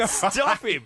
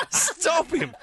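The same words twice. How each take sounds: First: Said in the usual way. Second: Raised mock cry to stop him; mock alarm. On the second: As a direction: call out in mock panic. Mock alarm at new Pope.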